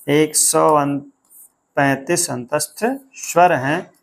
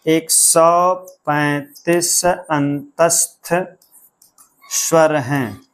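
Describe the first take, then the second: First: Said in the usual way. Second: Very slow, drawn-out chant of एक सौ पैंतीस अंतस्थ स्वर हैं; slow mnemonic recital. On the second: Shown as a demonstration. Teacher recites the counting trick slowly so students memorise it. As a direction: spell out the memory trick word by word. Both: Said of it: "सीधा सा एक trick बताया गया था".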